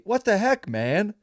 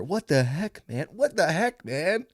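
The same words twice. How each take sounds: First: High whiny cry of outrage; whiny yell at the other driver; whiny loser yell. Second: Whiny, pitching up on what; mock your own whiny yell; lightly whiny loser voice; whiny repeat. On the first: Retold or imitated. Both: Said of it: "All whiny like that".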